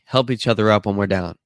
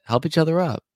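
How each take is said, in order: First: Said in the usual way. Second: "Help each other up" said higher, with a fall on "other"; emphatic repeat. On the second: Shown as a demonstration. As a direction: lift the pitch and lean on "other" in "Help each other up". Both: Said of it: "That's it".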